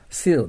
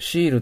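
First: The word begins with a plain 's' sound. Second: The word begins with a 'sh' sound. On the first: The speaker calls it right. "シールですよ" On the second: The speaker calls it wrong. "シールと言ったら違いますよ"

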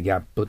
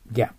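First: A vowel sound follows the final p. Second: The word ends on p without a vowel. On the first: The speaker calls it wrong. "日本語でギャップと言います。" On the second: The speaker calls it right. "でもP の後に母音を残してはいけません。"

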